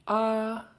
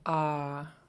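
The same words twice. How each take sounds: First: The long vowel is said on a high tone. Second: The long vowel is said on a low tone. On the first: "And then high tone" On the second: "we'll start with low"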